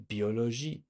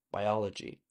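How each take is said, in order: First: Biologie as bee-o-lo-ZHEE, rising; French pronunciation. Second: Biology as bye-OL-uh-jee; biology with English vowels and hard j; English pronunciation. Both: Shown as a demonstration. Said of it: "The ending is different in French".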